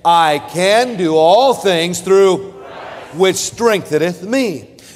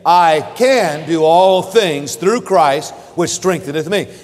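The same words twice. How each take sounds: First: The word Christ is stressed. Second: The word can is stressed. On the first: "let's emphasize the word Christ" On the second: "let's emphasize the word can"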